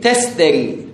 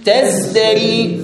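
First: The middle cluster is a voiceless st. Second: The middle cluster is a voiced zd.

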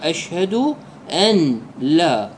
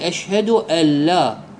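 First: The n is pronounced clearly before the l. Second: The n merges into the l, unheard. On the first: "يقرأ بالفك بدون الإدغام" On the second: "بدون أن يلفظ النون"

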